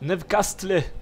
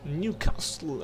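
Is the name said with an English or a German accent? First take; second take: German; English. First: It is said with a German pronunciation. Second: It is said with an English pronunciation. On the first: "¿cómo sería la pronunciación germánica?" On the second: "así bien pronunciado"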